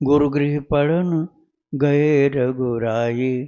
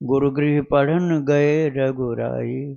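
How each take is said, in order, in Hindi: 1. यह पंक्ति धीमी गति से पढ़ी गई है। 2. यह पंक्ति मध्यम गति से पढ़ी गई है। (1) "इतना धीमा भी कर सकते हो" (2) "इतना स्पीड रखना"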